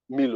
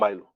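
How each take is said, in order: First: The first syllable sounds like 'me'. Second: The first syllable sounds like 'my'. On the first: "that thing will not be called Milo anyway" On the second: "If they replaced that I with a Y, ... It will be called Milo"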